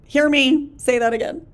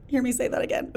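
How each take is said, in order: First: Loud, emphatic call to listen; really loud. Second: Said in the usual way. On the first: Real, not acted. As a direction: raise the voice to drive the point home. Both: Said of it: "Ooh, I just got really loud".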